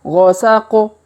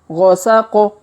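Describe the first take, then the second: No difference in how they are said.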